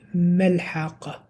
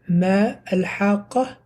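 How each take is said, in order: First: The two words are joined into one. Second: The two words are said separately. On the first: The speaker calls it right. "it became mal-haqqa. Mal-haqqa, connected" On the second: The speaker calls it wrong. "instead of"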